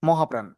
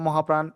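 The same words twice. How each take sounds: Both takes have the same delivery.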